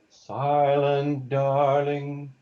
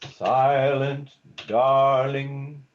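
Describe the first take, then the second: First: The words run together, stressing only the start. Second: Both words are stressed, with a break between.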